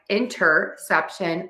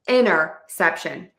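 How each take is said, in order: First: The T after the N is clearly pronounced. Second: The T after the N is dropped entirely. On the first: "with the T" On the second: "drop the T altogether and say inner"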